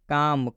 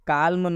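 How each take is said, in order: First: The L sound is silent. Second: The L sound is pronounced. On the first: The speaker calls it right. "इस एल का उच्चारण हम नहीं करेंगे" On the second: The speaker calls it wrong. "काल्म नहीं पढ़ेंगे"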